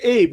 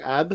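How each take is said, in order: First: The name has a long vowel, like 'babe'. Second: The name has a short vowel, like 'cab'. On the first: The speaker calls it right. "I was like" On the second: The speaker calls it wrong. "they fucked that up too"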